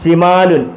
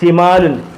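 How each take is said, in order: The two takes are said the same way.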